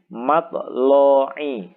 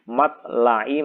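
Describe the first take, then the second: First: The l is heavy with a darkened o-like vowel. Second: The l is light with a plain a vowel.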